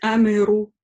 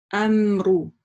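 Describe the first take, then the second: First: A vowel is inserted between m and r. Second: The m joins the r with no vowel. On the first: The speaker calls it wrong. "не допускается говорить амеру" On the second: The speaker calls it right. "Здесь буква с сукуном"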